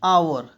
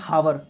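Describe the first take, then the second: First: The word starts directly with a vowel sound. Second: The word starts with an audible h sound. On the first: The speaker calls it right. "ये है आवर" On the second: The speaker calls it wrong. "That is not हावर"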